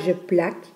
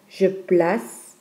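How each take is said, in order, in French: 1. Le c se prononce comme un son k. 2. Le c se prononce comme un son s. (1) "On ne dit pas" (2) "On prononce donc le C comme S"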